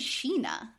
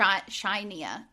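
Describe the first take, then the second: First: The name is said the way people say it. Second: The name is said as its spelling reads. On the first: This is how the name's owners say it. "They say Sheena" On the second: This is how a reader would guess it from the spelling. "But if I would read it"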